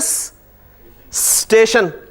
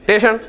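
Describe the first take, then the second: First: The word starts directly with the s-t cluster. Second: The s is dropped and the word starts with t. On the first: It is how people here say it. "हम इसे बोल ही लेते हैं जी स्टेशन" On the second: It is how Punjabi speakers say it. "उन्होंने कहा जी इसे भी गिरा दो"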